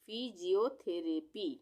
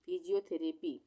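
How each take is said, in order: First: फिजियोथेरेपी slowly, in separated syllables; broken into syllables. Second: Said in the usual way. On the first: Shown as a demonstration. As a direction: sound out फिजियोथेरेपी piece by piece. (फिजियोथेरेपी को धीरे-धीरे तोड़कर) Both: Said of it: "इसको हम तोड़ेंगे".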